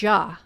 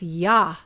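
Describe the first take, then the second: First: The syllable begins with a J sound. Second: The syllable begins with a Y sound. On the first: "not Ja" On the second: "the way it was pronounced to me in the dream was Yah"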